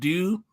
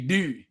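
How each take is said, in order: First: It is said in a standard accent. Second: It is said in a Baltimore accent.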